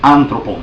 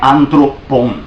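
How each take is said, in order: First: The word is said as one smooth unit. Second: The word is broken into separate parts. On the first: The speaker calls it right. "tudo junto" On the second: The speaker calls it wrong. "Não é anthropon separado"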